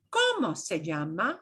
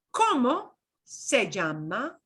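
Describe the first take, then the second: First: Said in the usual way. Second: Slow, word-by-word ¿Cómo se llama?; spaced out for learners, with a pause after cómo; slowly. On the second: Shown as a demonstration. Teacher repeats the question for beginners, slowly. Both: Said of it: "and I'll say it slowly".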